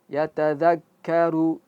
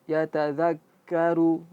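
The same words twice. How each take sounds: The two takes are said the same way.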